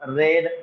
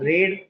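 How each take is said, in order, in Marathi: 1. स्वर लहान 'e' आवाजाचा आहे. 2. स्वर लांब 'ee' आवाजाचा आहे. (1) "सेकंड फॉर्म रेड आहे" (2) "फर्स्ट फॉर्म रीड आहे"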